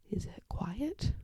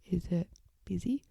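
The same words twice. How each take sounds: First: Soft, slow whisper. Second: Said in the usual way. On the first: Shown as a demonstration. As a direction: hush the question gently.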